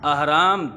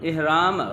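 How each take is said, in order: First: The first vowel is an open 'a' sound. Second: The first vowel is a short 'i' sound. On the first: The speaker calls it right. "अहराम दुरुस्त है, ये अलिफ की ज़बर के साथ है" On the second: The speaker calls it wrong. "इहराम गलत है, ये ज़ेर के साथ नहीं है"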